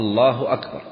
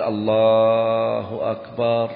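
First: الله أكبر said briskly with no lengthening; cut short. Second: Slow, chanted stretch on both الله and أكبر; drawn-out takbir. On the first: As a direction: keep both الله and أكبر short, ending firmly on "bar". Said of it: "أن يقطعه قطعا". (قطع «الله أكبر» قطعًا دون تمطيط) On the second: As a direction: hold the long vowels of الله, then stretch أكبر to "akbaar". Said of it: "شو مططه؟". (تمطيط «الله أكبر» ببطء شديد) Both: Shown as a demonstration.

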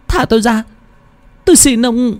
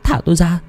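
First: Even higher, desperate begging cry; a terrified girl pleading with everything she has; the plea climbs higher, near a wail. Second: Put-on high, frightened cry of a trapped girl; first cry, high and pleading; desperate pleading. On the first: Acted. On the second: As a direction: beg to be let go, voice pitched up in fear. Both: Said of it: "Tiếng cô gái kêu khóc thảm thiết".

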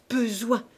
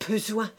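First: Repeated word pushed louder and higher; second stammer climbing in fury; stammering rage, rising. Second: Choked word, louder; stammered first word of a choking husband; stammering rage. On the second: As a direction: sputter it out in fury. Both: A narrator's reading. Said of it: "balbutia-t-il".

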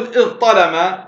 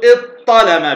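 First: إذ ظلم as iẓ-ṭalama, ẓ clearly before ṭ; both letters distinct. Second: إذ ظلم as iṭ-ṭalama, ẓ merged into long ṭ; doubled ṭa. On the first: Teacher gives the first option, unmerged ẓṭ in إذ ظلم. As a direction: sound ẓ and ṭ separately in إذ ظلم. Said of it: "بالإظهار". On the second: Teacher gives the second option, doubled ṭ in إذ ظلم. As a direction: hold one doubled ṭ in إذ ظلم. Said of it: "بطاء مشددة". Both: Shown as a demonstration.

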